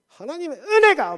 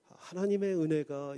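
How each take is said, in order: First: It is said in a forceful, lively way. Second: It is said in a flat, sleepy way.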